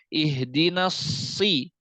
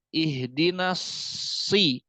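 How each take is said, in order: Both takes have the same delivery.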